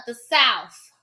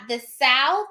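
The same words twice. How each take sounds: First: South said slowly with an F at the end; South as "Souf". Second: Said in the usual way. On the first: Shown as a demonstration. Vlogger corrects herself for Southerners, South pronounced "Souf". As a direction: end South on F instead of TH, drawn out. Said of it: "It's S O U F". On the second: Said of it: "I'm sorry, not the South".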